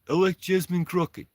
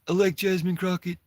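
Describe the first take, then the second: First: It is spoken with a Russian-sounding accent. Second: It is spoken in the speaker's ordinary accent.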